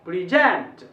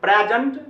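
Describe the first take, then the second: First: प्रेजेंट said "pri-ZENT", second syllable hit, falling; प्रेजेंट as verb, stress moved to end; pri-ZENT, the verb form. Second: प्रेजेंट said "PREZ-ent", loud on first syllable, rising; प्रेजेंट as noun with first syllable hit; PREZ-ent, the noun form; noun stress. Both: Shown as a demonstration. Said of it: "एक ही word को दो तरीका से".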